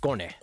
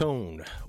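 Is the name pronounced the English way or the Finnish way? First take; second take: Finnish; English. First: The name is said with a Finnish pronunciation. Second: The name is said with an English pronunciation. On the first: "if I pronounce it for Finnish like machine" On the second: "Kone with a K"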